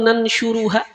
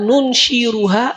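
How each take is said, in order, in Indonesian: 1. Suku kata pertama diucapkan dengan vokal a. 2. Suku kata pertama diucapkan dengan vokal u. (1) "dengan fathahnya nun" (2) "dengan dhammah nun"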